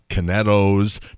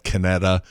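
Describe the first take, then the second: First: The name ends with an o sound. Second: The name ends with an a sound. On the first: The speaker calls it right. "it's pronounced Canetto's" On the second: The speaker calls it wrong. "not Canetta"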